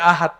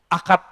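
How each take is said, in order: First: The middle consonant is a soft h sound. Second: The middle consonant is a hard k sound. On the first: "kalau di kampung saya orang nyebutnya ahad" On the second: "Akad malah"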